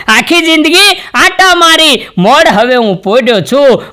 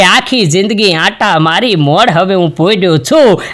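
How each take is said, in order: First: High, slow wailing lament, આટા held and falling; slow high mock wail from the corpse; higher lament. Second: Said in the usual way. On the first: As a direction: lift it high and wail it slowly like a dirge. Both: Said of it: "લાશ એટલું બોલે કે".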